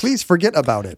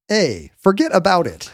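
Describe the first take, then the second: First: Politely softened catchphrase; well-mannered New Yorker. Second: Put-on slow, higher New York accent; New Yorker catchphrase. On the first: Acted. Well-mannered transplant toning down the catchphrase, mock polite. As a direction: make the catchphrase a courteous request. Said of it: "the well-mannered ones". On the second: Transplant showing off the catchphrase, mock New York accent. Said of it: "well-mannered ones immediately start saying".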